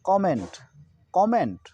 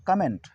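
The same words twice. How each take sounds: First: कमेंट as KAW-ment; correct comment pronunciation. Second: कमेंट as ka-ment; short weak ka opening कमेंट; mispronounced comment. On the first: Teacher giving the replacement reading, कमेंट as kaw-ment. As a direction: open o in the start of कमेंट. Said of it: "जगह पर क्या होना चाहिए?". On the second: Teacher quoting the common reading, कमेंट as ka-ment. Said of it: "इसको हम लोग पढ़ते हैं". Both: Shown as a demonstration.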